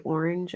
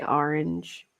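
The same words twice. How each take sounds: First: Orange said as "OR-inj"; other people's pronunciation. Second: Orange said as "AR-inj"; own pronunciation. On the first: Streamer showing how people say it, orange as "OR-inj". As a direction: say orange with a round "or". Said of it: "Like, people say orange". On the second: Streamer showing their own way, orange as "AR-inj". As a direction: say orange with an open "ar". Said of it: "I say orange". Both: Shown as a demonstration.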